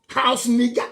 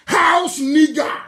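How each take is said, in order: First: Said in the usual way. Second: Slow, loud, shouted with a sob; shouted insult. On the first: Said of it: "repeated, second time shouted". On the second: Real, not acted. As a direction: hurl the words out slowly, near tears. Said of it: "same words repeated louder".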